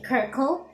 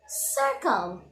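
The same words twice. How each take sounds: First: The word begins with a hard k sound. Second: The word begins with a soft s sound. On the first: The speaker calls it wrong. "we don't say circle" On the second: The speaker calls it right. "we use the soft sound S"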